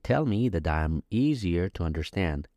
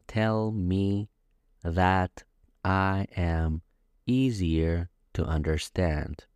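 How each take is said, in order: First: The words run together, with the T of 'that' sounding like a D. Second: Each word is said separately and carefully. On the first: The speaker calls it right. "The way they speak is" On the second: The speaker calls it wrong. "I said everything word by word, but that's not how Americans speak"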